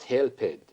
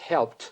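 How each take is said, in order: First: The -ed ending is said as an extra syllable. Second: The ending joins the word without an extra syllable. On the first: The speaker calls it wrong. "not helped" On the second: The speaker calls it right. "the teacher tells the pupils that it's helped"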